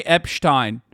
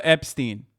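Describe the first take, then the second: First: "Epstein" said as EP-shtine; mispronounced name. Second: Said in the usual way. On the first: Retold or imitated. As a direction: give "Epstein" a sh sound and a final "tine". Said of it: "anti-Semitic for him to say Epstein". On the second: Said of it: "instead of".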